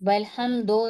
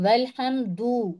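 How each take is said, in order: First: The word ends with an o vowel. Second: The word ends with a u vowel. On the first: The speaker calls it wrong. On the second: The speaker calls it right.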